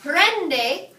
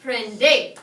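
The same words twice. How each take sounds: First: "Prende" drawn out slowly as PREN-de; stress on first syllable. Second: "prende" as pren-DE, slow, loud final syllable; stress on last syllable. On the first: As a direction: hit PREN loud and high, let de fall. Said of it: "It's over the second to last syllable". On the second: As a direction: offer the wrong option, punching DE in "prende". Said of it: "Which is it?". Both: Shown as a demonstration.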